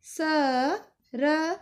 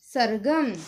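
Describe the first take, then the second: First: Very slow, letters stretched apart; slow sounding out. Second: Said in the usual way. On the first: Shown as a demonstration. Teacher showing pupils how to sound it out, very slow. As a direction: sound out each letter slowly. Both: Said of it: "अक्षरों को जोड़ के".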